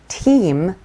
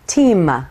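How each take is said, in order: First: The word ends cleanly on the m sound. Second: The word ends with an added ah vowel. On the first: The speaker calls it right. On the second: The speaker calls it wrong.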